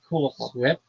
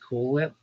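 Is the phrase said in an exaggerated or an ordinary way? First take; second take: exaggerated; ordinary. First: It is said in an exaggerated, cartoonish way. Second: It is said in a plain, ordinary way. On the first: It copies how a cartoon says it. "after watching Family Guy" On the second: It is the usual everyday way. "but usually just"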